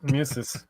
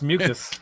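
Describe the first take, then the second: First: Musis read with a z sound, mew-zis; misreading. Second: Mucus said with a hard k, mew-kus; corrected pronunciation. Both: Shown as a demonstration. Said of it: "It's mucus".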